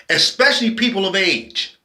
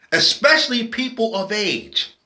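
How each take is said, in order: Both takes have the same delivery.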